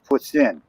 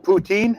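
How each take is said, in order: First: The word is pronounced with a French sound. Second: The word is pronounced with an anglicized sound. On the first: The speaker calls it right. "It's poutine" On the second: The speaker calls it wrong. "no, we're in Canada. Spell it or say it right"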